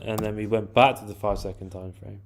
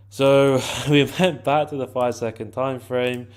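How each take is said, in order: First: Said in the usual way. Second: Laughing through it, a bit louder; amused repeat. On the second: Real, not acted. Trader repeats the step to viewers, laughing. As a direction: let a laugh break in, then restate.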